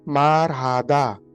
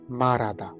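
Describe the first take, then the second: First: An h sound is heard in the middle. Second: No h sound is heard in the middle. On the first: "spelling is marhada" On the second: "the pronunciation will be marada"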